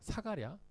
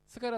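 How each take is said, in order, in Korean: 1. 이 이름은 온전한 'sa' 음절로 시작합니다. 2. 이 이름은 약화된 'seu' 음절로 시작합니다. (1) "이 이름의 발음은요 아람어 발음이에요" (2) "원래 히브리어 발음은 뭐냐? 바로 스가랴입니다"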